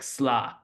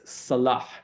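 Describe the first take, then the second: First: The first vowel is dropped, leaving one short syllable. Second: Both syllables are pronounced, with a vowel after s. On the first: "in Syrian, sort of American Syrian parlance, it sometimes ends up being pronounced like sla" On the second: "the word for prayer, which is salah"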